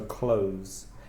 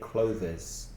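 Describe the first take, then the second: First: The word has one syllable, ending in a v sound. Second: The word has two syllables, with an extra vowel. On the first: The speaker calls it right. "it's much clearer than Clovis" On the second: The speaker calls it wrong. "Many of my students say Clovis"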